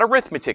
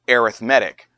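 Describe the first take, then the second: First: It is pronounced the way the noun is. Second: It is pronounced the way the adjective is. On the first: The speaker calls it wrong. "Not arithmetic sequences, no" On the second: The speaker calls it right. "This word is arithmetic when you're using it as a descriptor"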